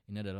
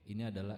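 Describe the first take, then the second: First: The voice is dry with no added reverb. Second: The voice has a short small-room reverb. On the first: "ini adalah original" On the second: "ini adalah efek room"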